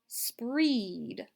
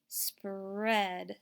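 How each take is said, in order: First: The vowel is a long E, as in beach. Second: The vowel is a short E, as in bread. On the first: The speaker calls it wrong. "we're going to try E like beach" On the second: The speaker calls it right. "Let's try eh like bread"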